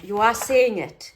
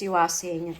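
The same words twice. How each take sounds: First: Loud, slow You are seeing it with seeing hit hard and falling; stress on seeing. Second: Said in the usual way. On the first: Shown as a demonstration. Crafter confessing to viewers, seeing stressed loud and slow. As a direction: lean on seeing, drawn out and loud.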